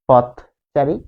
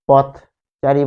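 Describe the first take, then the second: Both takes have the same delivery.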